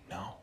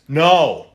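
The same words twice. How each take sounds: First: It is said quietly. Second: It is said loudly.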